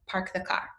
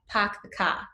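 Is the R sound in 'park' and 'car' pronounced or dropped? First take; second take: pronounced; dropped. First: The R sounds after the vowels are pronounced. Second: The R sounds after the vowels are dropped. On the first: The speaker is from the West Coast. "on the West Coast, we probably say something like" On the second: The speaker is from Boston. "real quintessential Boston accent"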